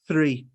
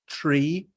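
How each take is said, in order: First: It begins with a smooth, airy sound. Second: It begins with a sharp t-like burst. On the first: The speaker calls it right. "a very smooth sounds sound... There is no impact" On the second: The speaker calls it wrong. "they include the T, the T sound"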